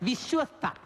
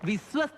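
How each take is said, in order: First: The middle 'shwa' sound is clearly pronounced. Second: The middle 'shwa' sound is not clearly pronounced. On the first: The speaker calls it right. "ശ്വാസോച്ഛ്വാസത്തിന്റെ ശ്വ" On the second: The speaker calls it wrong. "വിശ്വസ്ത അല്ല"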